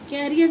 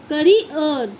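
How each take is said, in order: First: The first vowel sounds like a long 'air'. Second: The first vowel sounds like a short 'uh'. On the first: The speaker calls it wrong. "कैरियर नहीं पढ़ते बच्चों" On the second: The speaker calls it right. "इसे पढ़ते हैं हम करियर"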